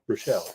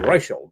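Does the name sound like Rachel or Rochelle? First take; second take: Rochelle; Rachel. First: The name is said like Rochelle. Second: The name is said like Rachel. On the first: The speaker calls it right. "but no, Rochelle" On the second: The speaker calls it wrong. "I think Rachel"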